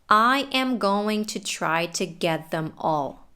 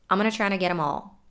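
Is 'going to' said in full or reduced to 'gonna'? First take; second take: full; reduced. First: Every word is said fully and separately. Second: The words are reduced and run together.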